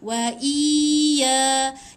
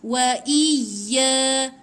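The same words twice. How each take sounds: First: The vowel is stretched long before the y. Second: The vowel is short and the y is doubled. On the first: The speaker calls it wrong. "itu dia macam panjang dua harakat" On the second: The speaker calls it right. "dia bukan panjang dua harakat, tetapi dia masuk dekat ya"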